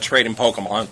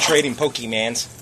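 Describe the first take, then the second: First: The last word ends with a 'mon' sound. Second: The last word ends with a 'mans' sound. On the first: "he actually said it right" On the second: "Let me rephrase that"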